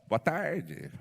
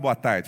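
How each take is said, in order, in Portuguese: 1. A voz falha como a voz de um adolescente na muda. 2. A voz está firme e uniforme. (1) "falava boa tarde" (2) "Eu não falava boa tarde"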